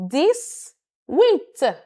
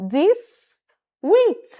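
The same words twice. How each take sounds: No difference in how they are said.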